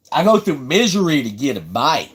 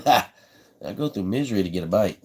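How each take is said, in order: First: Said in the usual way. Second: Repeated through a real laugh. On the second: Real, not acted. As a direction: chuckle as you say it again. Repeats line, then laughs.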